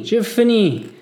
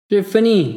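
First: Higher, loud wail of giving up; despairing moan, louder. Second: High, loud moaning cry in French; despairing moan. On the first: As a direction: let it break into a wail. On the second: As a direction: cry it out like a man at the end of his strength. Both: A narrator's reading. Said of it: "I heard moan behind me".

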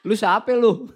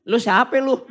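First: Betawi line broken by laughter; laughing through it. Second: A light Betawi street challenge from the angel. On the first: Preacher repeats the Betawi angel line, laughing. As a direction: say the Betawi line while cracking up. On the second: Preacher imagines mother-in-law meeting angel, light Betawi. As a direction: toss off a blunt Betawi who-are-you. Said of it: "ini karena ini orang Betawi". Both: Pretend.

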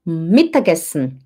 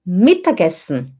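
The two takes are said the same way.

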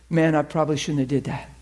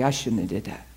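First: Said in the usual way. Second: "I shouldn't have did that" dropped low and much softer; softer, lower "I shouldn't have did that"; quiet admission. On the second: Retold or imitated. Girl corrects herself, regretful.

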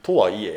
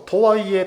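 First: とはいえ said lower with Kansai flow. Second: とはいえ said with a louder, higher Kansai lilt; Kansai flow. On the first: Explaining to a friend how とはいえ sounds in Kansai dialect. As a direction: drop とはいえ in Kansai style. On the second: Showing a friend how Kansai people say とはいえ, Kansai-style. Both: Shown as a demonstration. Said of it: "関西弁で言ったら".

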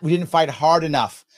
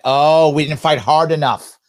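First: Said in the usual way. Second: Slow, louder mocking "Oh, we didn't fight hard enough"; sarcastic mock quote. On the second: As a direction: drag out the opponent's claim in scorn. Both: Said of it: "See that?".

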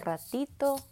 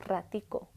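First: "ratito" slowly, with T in the ending; Mexican "ratito". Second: "ratico" with K in the ending; Colombian "ratico". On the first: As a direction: contrast "ratito", last syllable -to. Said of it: "instead of T O". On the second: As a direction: contrast "ratico", last syllable -co. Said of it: "it's C O". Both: Shown as a demonstration.

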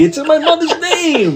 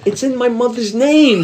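First: Much higher, slow, breaking into laughter; laughing mobster quote. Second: Slow, slightly higher mobster delivery; drawn-out film quote, lightly acted; movie mobster quote. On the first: Retold or imitated. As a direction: repeat the line pleading and laughing. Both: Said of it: "My favorite De Niro line".

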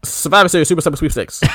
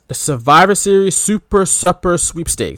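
First: Quick, higher run through the whole title; fast tongue twister. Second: Higher, deliberately spaced-out contest title; grand announcement. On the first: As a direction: rattle it off without a break. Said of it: "Say that five times fast". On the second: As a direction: present it like a big reveal. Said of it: "you ready for this?". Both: Shown as a demonstration.

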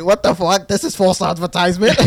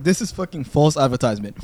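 First: A louder mock outburst at false advertising; acting out his own outrage, half laughing; outraged. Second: Said in the usual way. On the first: Telling a friend how he reacted to the Tinder girl, mock outrage.

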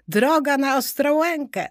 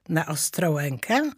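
First: Higher-pitched cry on Ostrołękę, falling at the end; high, lively statement landing on Ostrołękę; exclaimed sighting. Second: Rising question on Ostrołękę; restrained echo question, Ostrołękę rising; doubtful question. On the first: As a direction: announce Ostrołękę as a sudden sighting. Exclaimed sighting, then queried by Arbus. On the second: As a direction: query Ostrołękę, puzzled, voice lifting at the end. Arbus queries what was said. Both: A narrator's reading.

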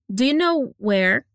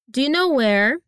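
First: "Do you know where?" run together slowly, words linked. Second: Said in the usual way. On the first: Shown as a demonstration. Teacher shows students the linking sounds, slow and linked. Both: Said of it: "Olha os linking sounds".

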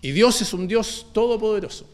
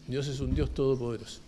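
First: Said out full and higher; firm proclamation. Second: Quiet echo. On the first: Preacher to congregation, firm full-voiced proclamation. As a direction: declare it plainly to the church. Statement then quiet echo. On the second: Preacher repeating it softly to congregation, hushed echo. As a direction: drop lower and much softer. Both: Acted.

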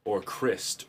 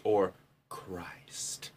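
First: Said in the usual way. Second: A soft, breathy whisper. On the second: Acted. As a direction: whisper it like a secret. Wordplay repeated twice.

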